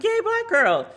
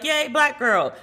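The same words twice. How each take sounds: First: Very high squealing cheer; much higher excited squeal; big cheer. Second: High, bright mock cheer of joy; little excited cheer. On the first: Retold or imitated. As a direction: shriek it with pure delight. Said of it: "and I was like". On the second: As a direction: squeal it like a happy fan. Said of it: "And I was like".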